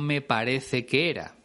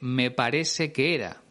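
First: The c in parece sounds like th. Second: The c in parece sounds like s. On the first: "no me parece que era" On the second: "ella dice me parece que era ... Se trata del seseo"

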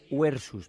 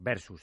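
First: It uses the classical Latin pronunciation. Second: It uses the later Latin pronunciation. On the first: "La pronunciación clásica sería versus" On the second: "hacemos la pronunciación... posterior"

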